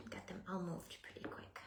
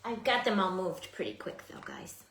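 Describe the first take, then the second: First: Whispering. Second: Said in the usual way. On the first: Real, not acted. Repeated whispered.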